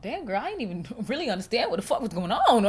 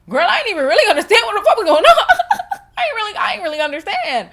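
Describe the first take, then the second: First: Breaking into laughter mid-sentence; laughing. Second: Loud, high, cackling through the words; laughing hard. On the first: Admitting confusion after reading a heated comment, laughing. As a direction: let a laugh interrupt the words. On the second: Repeating to viewers that she was lost, laughing loudly. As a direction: crack up and shout it through laughter. Cracking up, repeats herself louder. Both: Real, not acted.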